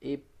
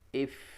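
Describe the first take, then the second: First: The final consonant is an abrupt stop. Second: The final consonant lets breath flow through. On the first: The speaker calls it wrong. "Bukan sekedar up, ip, up" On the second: The speaker calls it right. "tapi alirkan nafas"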